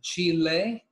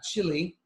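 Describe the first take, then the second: First: It is said unlike the food word chili. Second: It is said like the food word chili. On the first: It names the country you visit. The speaker calls it right. "you pronounce it Chile" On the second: It names a food you eat. The speaker calls it wrong. "not chili. It's not a food"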